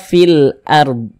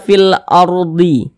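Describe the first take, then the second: First: The last word ends in a consonant. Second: The last word ends in a vowel. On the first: The speaker calls it right. "kita baca fil ard" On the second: The speaker calls it wrong. "Jangan dibaca fil ardi"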